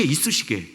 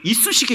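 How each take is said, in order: First: 이쑤시개 lower and softer, falling flat; 이쑤시개 said low and falling as a punchline; deflated 이쑤시개. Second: 이쑤시개 with a rising, questioning tune; 이쑤시개 said rising, set up for the repeat. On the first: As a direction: drop 이쑤시개 down, deadpan letdown. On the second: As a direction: lift 이쑤시개 up as if in disbelief. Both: Shown as a demonstration. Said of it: "자기 칼이 이쑤시개".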